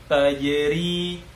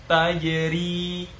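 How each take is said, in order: Both takes have the same delivery.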